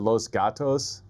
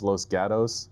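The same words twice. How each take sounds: First: The name is said with a Spanish pronunciation. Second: The name is said with a local Californian pronunciation. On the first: The speaker calls it wrong. "I said Los Gatos, like Spanish" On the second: The speaker calls it right. "I guess it's how they say it out there in California"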